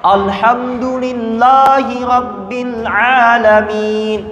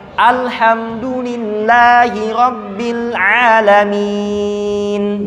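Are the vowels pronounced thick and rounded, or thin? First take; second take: thick; thin. First: The vowels sound thick, high and rounded. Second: The vowels sound thin, lowered and unrounded. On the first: The speaker calls it wrong. "jangan lagi bacanya ... Atau tinggi semua tuh" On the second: The speaker calls it right. "Dibaca direndahkan"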